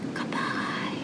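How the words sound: It is said very quietly. "Let's say goodbye as quiet as we can"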